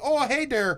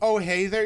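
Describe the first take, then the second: First: It is said in an exaggerated Canadian accent. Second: It is said in a plain, unaccented way. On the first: The speaker calls it right. "You gotta say oh hey there" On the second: The speaker calls it wrong. "instead of saying oh hey there"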